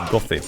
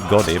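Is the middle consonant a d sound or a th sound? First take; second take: th sound; d sound. First: The middle consonant is a soft th sound. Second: The middle consonant is a d sound. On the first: The speaker calls it right. "but Gothi" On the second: The speaker calls it wrong. "it's not supposed to be Godi"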